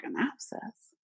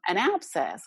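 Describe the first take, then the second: First: Higher, softer questioning repeat; quietly taken aback, pitch lifted; puzzled echo. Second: Said in the usual way. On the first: Retold or imitated. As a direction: echo it back as a baffled question. Echoes the news as a question.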